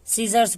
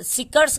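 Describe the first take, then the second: First: The middle consonant is a z sound. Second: The middle consonant is a k sound. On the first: The speaker calls it right. "सीजर्स पढ़ते हैं" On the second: The speaker calls it wrong. "सिकर्स कहे नहीं पढ़ते हैं"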